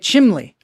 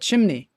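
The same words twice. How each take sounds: First: It is said with a Pittsburgh pronunciation. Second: It is said with a standard pronunciation.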